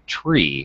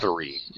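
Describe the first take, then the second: First: It begins with a plain t sound. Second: It begins with a th sound. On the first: This is the radio alphabet form. "you're supposed to say tree" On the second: This is the ordinary English form. "in English, it's pronounced three"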